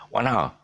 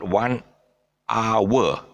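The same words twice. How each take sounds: First: "hour" as a smooth "ow-a", no W; hour without W. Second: "hour" split as "ah-wer" with a clear W; mispronounced hour. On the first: Teacher modelling for pupils, "hour" smooth with no W. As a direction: glide through "hour" with no W sound. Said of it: "There's no W. It's one hour". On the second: Teacher showing pupils the mistake, "hour" with a wrong W. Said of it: "It's not one hour. There's no W in it". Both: Shown as a demonstration.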